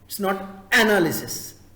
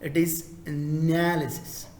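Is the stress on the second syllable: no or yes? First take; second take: no; yes. First: The stress is not on the second syllable. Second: The stress is on the second syllable. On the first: The speaker calls it wrong. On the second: The speaker calls it right. "second syllable"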